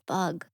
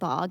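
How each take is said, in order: First: The vowel is a short 'u' sound. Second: The vowel is an open 'o' sound. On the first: The speaker calls it right. "and it's bug" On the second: The speaker calls it wrong. "We were saying bog"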